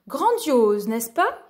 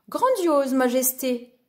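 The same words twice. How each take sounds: First: A touch of royal emphasis on "Grandiose"; lightly voiced king. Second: A touch of intimidation; a little intimidated. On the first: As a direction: proclaim it as the king, mildly. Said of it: "fit un homme vêtu d'or". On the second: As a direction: answer the king with mild awe. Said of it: "répondit Lou un peu intimidé". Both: A narrator's reading.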